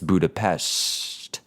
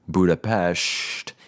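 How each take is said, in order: First: The s is between an s and sh. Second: The s is said as a full sh sound. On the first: The speaker calls it right. "sort of in between Budapest and Budapest" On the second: The speaker calls it wrong. "it's not usually quite the sh Budapest"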